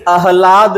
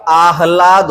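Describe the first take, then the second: First: आह्लाद said as "a-hlaad"; short first vowel. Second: आह्लाद said as "aah-laad"; long first vowel. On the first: Teacher showing the mistake, आह्लाद with short first a. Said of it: "आह्लाद नहीं होता". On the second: Teacher correcting the class, आह्लाद with long first aa. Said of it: "आह्लाद होता है". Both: Shown as a demonstration.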